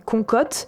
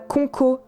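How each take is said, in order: First: The name ends in a T sound. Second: The name ends in a vowel sound. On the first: "ni Concote" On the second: "On ne dit pas Conco"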